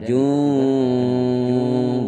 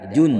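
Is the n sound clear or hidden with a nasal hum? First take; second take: hummed; clear. First: The n is hidden with a long nasal hum. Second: The n is pronounced clearly without a hum. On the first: The speaker calls it right. "Bacanya samar. Kemudian diikuti berdengung" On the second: The speaker calls it wrong. "Tidak boleh dibaca"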